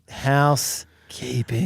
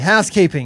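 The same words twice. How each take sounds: First: It is said slowly and drawn out. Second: It is said at a normal pace.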